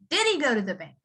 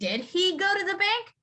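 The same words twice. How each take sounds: First: The h is dropped, sounding like 'diddy'. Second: The h in 'he' is clearly pronounced. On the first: "You would say" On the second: "instead of saying"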